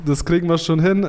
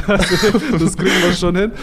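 First: Said in the usual way. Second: Laughing, higher and louder reassurance. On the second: Real, not acted. Guest laughs as he promises the host a number, laughing. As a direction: chuckle it out while promising.

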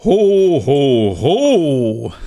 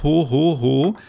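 First: Slow, loud, booming ho ho ho; proper Santa ho ho ho. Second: Quick, half-hearted ho ho ho; lightly mocked ho ho ho. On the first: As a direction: stretch each ho out like Santa. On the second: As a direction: toss off a weak Santa laugh. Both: Shown as a demonstration. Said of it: "Du betonst es nicht richtig".

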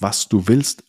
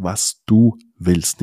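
First: Said in the usual way. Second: Slow, with du leaned on; "du" hit hard and drawn out, the rest slow; stress on du. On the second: Shown as a demonstration. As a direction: make it clear it's what du want. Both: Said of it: "aber wichtig die Betonung".

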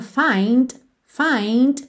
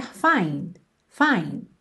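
First: "find" with a clearly released final d. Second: "find" with the final d held and not released; unreleased final d. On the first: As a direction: say "find" with a crisp d at the end. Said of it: "esse Dzinho final bem marcadinho". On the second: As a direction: say "find" with the d barely sounded. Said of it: "o D não chega a fazer o t". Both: Shown as a demonstration.

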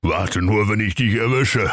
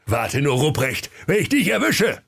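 First: Mild threat in near-usual pitch; understated exasperated warning; desperate Ruprecht. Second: Threatening cry climbing high; hammed-up high-pitched warning; Weihnachtsmann. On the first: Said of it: "rief der Rupprecht verzweifelt". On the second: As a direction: threaten indignantly, jumping up in pitch. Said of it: "Der Weihnachtsmann sprach". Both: A narrator's reading.

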